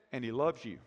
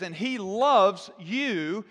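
First: Much lower and softer, almost confiding; gently hushed declaration of love; soft tender hush. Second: And he loves you drawn out very slowly, loves rising; lingering on loves to show the present tense; slow emphasis. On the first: Acted. Tender punchline of God's love. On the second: Shown as a demonstration. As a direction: stretch out And he loves you word by word. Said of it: "present tense in the Greek".

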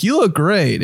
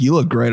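First: A hint of a girl, pitched higher; girl giving compliment. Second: Lightly voiced guy, at usual pitch; guy giving compliment. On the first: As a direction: lightly imitate a girl's compliment, voice lifted. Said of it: "when a girl's like". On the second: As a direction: imitate a guy's plain, unlifted compliment. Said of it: "when a guy's like".

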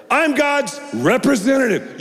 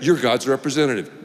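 First: I'm pitched high and ringing, then lands; proclaimed high. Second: Said in the usual way. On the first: Real, not acted. Preacher proclaims to the congregation, high and ringing.

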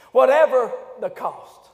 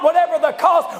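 First: Slow, measured wartime resolve; a hint of Churchill. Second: Shouted, driving preacher's cry; preached in own words. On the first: Preacher quoting Churchill, slow and measured. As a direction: lay it down slowly like Churchill. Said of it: "Winston Churchill would say it like this". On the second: Acted. Preacher shouting his own version to the church. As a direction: hurl it at the church. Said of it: "Let me just put it in my own words".

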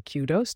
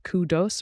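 First: "kudos" with first syllable like cue, ending dohs; KYOO-dohs pronunciation. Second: "kudos" with first syllable like coo, ending dohs; KOO-dohs pronunciation. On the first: Host offers alternative for pronouncing kudos, "kudos" said KYOO-dohs. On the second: Host offers first option for pronouncing kudos, "kudos" said KOO-dohs. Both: Shown as a demonstration. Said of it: "pronounced kudos or kudos, depending on your preference".

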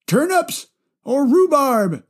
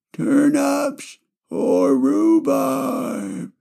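First: Put-on high old man voice, "rhubarb" falling; grandpa voice. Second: Drawn-out grandpa voice. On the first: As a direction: grandpa weighing "turnips or rhubarb", slowly. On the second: Acted. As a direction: stretch "turnips or rhubarb" out like a stuck grandpa. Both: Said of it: "I just love doing my grandpa voice".

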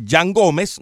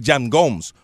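First: "Gómez" in two syllables, GO-mes; Spanish pronunciation. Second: "Gomes" as one syllable, GOHMS; English pronunciation. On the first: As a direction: say "Gómez" Latin style, GO-mes. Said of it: "no le voy a decir Jan Gomes". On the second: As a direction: clip "Gomes" to American GOHMS. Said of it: "no le voy a decir". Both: Shown as a demonstration.

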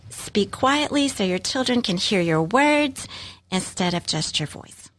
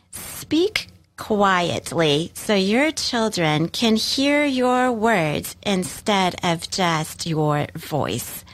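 First: Said in the usual way. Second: Slow deliberate quote. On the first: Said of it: "I love that". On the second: Shown as a demonstration. Sharing a favourite parenting quote, very slow and deliberate. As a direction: read it very slowly, weighing each word. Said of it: "Here's another quote from L R Knotts".

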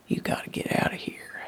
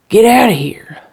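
First: Quick, whispered warning; hushed urgency. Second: Loud, high, frantic order; wild shout. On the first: Erratic husband telling wife to leave, urgently hushed. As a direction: urge them out under the breath, fast. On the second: Erratic husband wild-eyed at the window, shouting. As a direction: burst out shouting to drive them away. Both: Acted.

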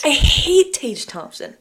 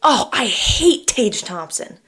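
First: Slow, higher, louder insistence; emphatic dislike. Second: Slow, drawn-out groan of dislike; slow mock disgust. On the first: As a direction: lean hard on hate. Repeats her dislike emphatically. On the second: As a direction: drag it out, playfully disgusted. Reacting to co-host's pick. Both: Real, not acted.

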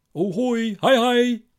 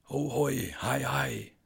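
First: Much higher and louder, an uncanny sing-song call; an unseen man calling from outside the window; shrill ghostly hello that rises to a cry; eerie greeting. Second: Higher, eerie call at normal volume; the same unseen voice, now drifting away; fainter eerie greeting. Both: Acted.

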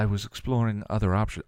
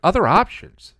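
First: Said in the usual way. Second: Loud, high-pitched disbelief; incredulous echo, shooting up in pitch. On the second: A narrator's reading. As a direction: throw the words back in outraged disbelief. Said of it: "she repeated incredulously".

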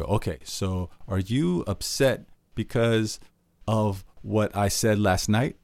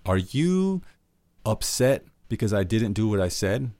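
First: Slow, laboured repeat; repeating the guess. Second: Wrong way to ask. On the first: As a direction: drag the same question out again. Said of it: "you go". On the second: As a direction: ask it like an accusation. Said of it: "what you don't wanna do is be like". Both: Shown as a demonstration.

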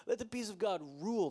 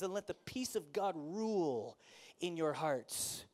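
First: Quick, laughing repeat of let the peace of God rule. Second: Slow, weighty reading with peace stressed. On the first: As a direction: toss it off with a chuckle. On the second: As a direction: read the verse deliberately. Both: Shown as a demonstration. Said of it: "rereads the verse".

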